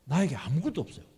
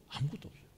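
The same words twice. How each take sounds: First: Said in the usual way. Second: Hushed echo. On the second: Shown as a demonstration.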